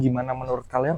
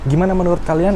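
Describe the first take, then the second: First: Wind and background noise are filtered out. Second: Wind and background noise are left unfiltered. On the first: "sekarang noise reduction-nya udah aktif" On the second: "Ini noise reduction-nya sedang tidak aktif"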